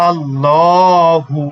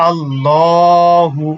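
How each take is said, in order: The two takes are said the same way.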